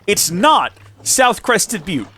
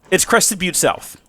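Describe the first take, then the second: First: "not South" stressed high and slow as the wrong order; slow, pointed correction leaning on "not South". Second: "Crested Butte South" said slowly and firmly as the right order; correct name stressed. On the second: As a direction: settle the right name with slow weight. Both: Shown as a demonstration. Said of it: "I'm not misspeaking here".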